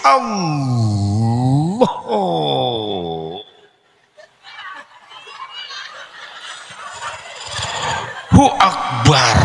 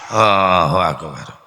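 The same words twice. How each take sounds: First: It is said earnestly, straining for devotion. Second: It is said carelessly, without feeling.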